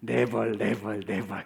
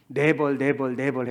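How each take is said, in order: First: Never said as nebol, trailing off; Never in Korean accent, fading. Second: Never said as nebol, Korean-style; Never with a thick Korean accent. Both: Shown as a demonstration. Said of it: "일부러 발음을 그렇게 했습니다".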